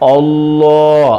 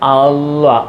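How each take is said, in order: First: The L sound is full and heavy. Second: The L sound is light and thin. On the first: The speaker calls it right. "ഫുൾ ഫുൾ ഓളിയത്തിൽ കനപ്പിച്ച് പറയുക" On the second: The speaker calls it wrong. "ഇങ്ങനെ പറയരുത്"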